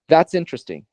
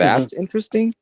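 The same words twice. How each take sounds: First: The voice falls at the end. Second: The voice rises at the end. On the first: It is simply a statement. "That just simply is a statement" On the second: The speaker doubts that the thing is interesting. "Just by just by uh, rising in my tone"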